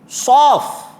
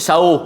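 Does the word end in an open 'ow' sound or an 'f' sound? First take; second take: f sound; ow sound. First: The word ends in an 'f' sound. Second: The word ends in an open 'ow' sound. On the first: The speaker calls it right. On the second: The speaker calls it wrong. "Bukan sauh"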